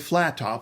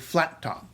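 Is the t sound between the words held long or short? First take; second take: short; long. First: The t sound between the words is short. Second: The t sound between the words is held long. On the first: The speaker calls it wrong. "We don't say flat top" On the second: The speaker calls it right. "We say flat top"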